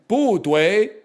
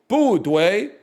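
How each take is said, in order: Both takes have the same delivery.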